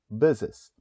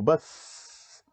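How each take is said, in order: First: It ends with an added second syllable. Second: It ends in one syllable with a long hiss. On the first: The speaker calls it right. "coloque o E S e aí faça a pronúncia correta" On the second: The speaker calls it wrong. "Imagine se você fosse colocar apenas um S no final"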